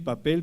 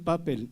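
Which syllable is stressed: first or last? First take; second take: last; first. First: The stress is on the last syllable. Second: The stress is on the first syllable. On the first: The speaker calls it right. "Decimos tonel, papel, pastel. Las palabras terminadas en L, que no tienen tilde, son agudas" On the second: The speaker calls it wrong. "no decimos papel"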